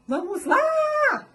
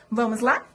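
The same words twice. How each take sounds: First: Very high "Vamos lá" with LÁ held; long summoning call ending on LÁ; calling out, stretched LÁ. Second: Said in the usual way. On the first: Shown as a demonstration. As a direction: holler "Vamos lá", drawing out LÁ. Calls out, stretching the stressed syllable.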